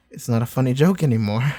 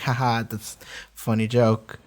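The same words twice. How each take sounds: First: Said in the usual way. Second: Amused laugh. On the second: Retold or imitated. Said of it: "I heard that and I laughed at it".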